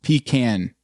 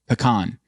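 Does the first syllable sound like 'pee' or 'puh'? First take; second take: pee; puh. First: The first syllable is a long 'pee' sound. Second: The first vowel is reduced to a short 'puh'. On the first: "P E E K A N N" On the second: "P apostrophe C O N"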